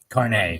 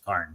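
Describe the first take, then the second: First: The name is said as two syllables. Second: The name is said as one syllable. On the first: The speaker calls it right. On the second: The speaker calls it wrong.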